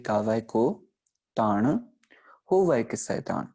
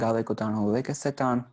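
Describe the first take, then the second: First: There is a pause after the first taan. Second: It runs on with no pause after taan. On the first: The meaning of the line becomes clear. The speaker calls it right. "जब हमने proper विश्राम का इस्तेमाल किया" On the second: The meaning of the line stays unclear. The speaker calls it wrong. "हम आम तौर पे पढ़ते हैं"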